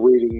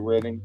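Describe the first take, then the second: First: The first vowel is long, as in 'reed'. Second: The first vowel is short, as in 'red'. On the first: It is the ordinary verb form. "instead of reading" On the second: It is how the city name is said locally. "they say reading"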